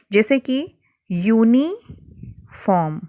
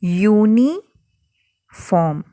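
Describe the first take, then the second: First: यूनिफॉर्म slowly, starting with a "y" glide; teacher sounding out a word; drawn-out demo. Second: यूनिफॉर्म stretched very slowly, "yu" glide clear; teacher's model pronunciation; very slow demo. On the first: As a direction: stretch out यूनिफॉर्म so the "yu" is heard. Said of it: "जब आप इसे pronounce कर रहे हैं". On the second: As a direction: sound out यूनिफॉर्म slowly, opening on "y". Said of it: "तो आप कैसे बोल रहे हैं?". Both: Shown as a demonstration.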